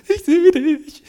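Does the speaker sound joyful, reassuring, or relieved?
joyful. It is said in a joyful tone. Seeing someone again is a happy reunion. "Kann Freude sein"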